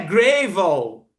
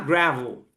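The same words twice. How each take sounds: First: The first vowel is said with a narrower mouth. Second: The first vowel is said with a wide-open mouth. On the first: The speaker calls it wrong. "não é gravel" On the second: The speaker calls it right. "abre a boca bem para falar o, o A"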